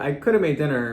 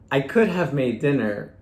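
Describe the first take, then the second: First: The h in have is dropped. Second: The h in have is fully pronounced. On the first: "This changes to" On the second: "a past modal structure could be something like"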